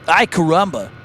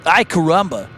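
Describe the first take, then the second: First: It is said with heavy creaky vocal fry. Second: The same.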